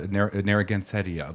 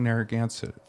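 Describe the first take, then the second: First: The ending sounds like the end of poinsettia. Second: The ending is said the usual way. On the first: The speaker calls it right. "like a point poinsettia" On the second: The speaker calls it wrong. "We've been mispronouncing Narragansett"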